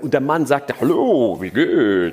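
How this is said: The greeting is acted out in a character voice.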